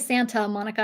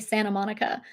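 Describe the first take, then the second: First: The t sound in Santa is clearly pronounced. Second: The t sound in Santa is dropped. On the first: "I don't say Santa Monica" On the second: "I say Santa Monica"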